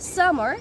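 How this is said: It is said in an American accent. "in the American accent"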